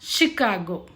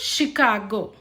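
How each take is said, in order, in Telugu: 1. ఇది sh ధ్వనితో మొదలవుతుంది. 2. ఇది sh ధ్వనితో మొదలవుతుంది.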